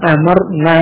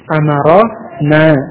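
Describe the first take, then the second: First: No vowel follows the r sound. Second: A short a vowel follows the r sound. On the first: We commanded. The speaker calls it wrong. "Kalau dibaca amarna, ra-nya sukun" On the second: The Prophet commanded us. The speaker calls it right. "Ini jadi amara, ra-nya fathah"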